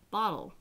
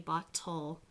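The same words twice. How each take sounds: First: The final L itself forms the last syllable. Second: A clear vowel sound comes before the final L. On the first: "we say bottle, and the ol becomes its own syllable" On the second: "most of the time we don't say bottle"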